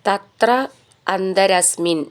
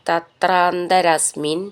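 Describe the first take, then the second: First: The two words are said separately. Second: The two words are joined into one.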